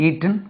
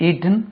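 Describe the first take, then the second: The two takes are said the same way.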